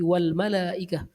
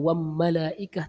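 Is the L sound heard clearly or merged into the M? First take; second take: clear; merged. First: The L is sounded clearly before the M. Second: The L is merged into a doubled M. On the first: The speaker calls it right. "tapi wal malaikah" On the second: The speaker calls it wrong. "kita tidak baca wam malaikah"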